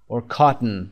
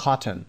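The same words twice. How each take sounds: First: Cotton as KAH-tn, second vowel dropped; reduced vowel. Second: Cotton said as KAH-tn, no o sound in the last syllable; reduced vowel. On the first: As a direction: swallow the o in cotton. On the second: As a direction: drop the o in cotton. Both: Shown as a demonstration.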